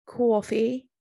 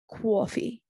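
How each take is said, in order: First: A second Jersey accent try at "Coffee", a touch louder with a rise; Jersey accent retry. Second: A light, half-hearted Jersey accent on "Coffee", said like "cwoffee"; Jersey accent try. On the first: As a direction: push the Jersey accent on "Coffee" a little harder. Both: Shown as a demonstration. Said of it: "I'm trying to do a Jersey accent".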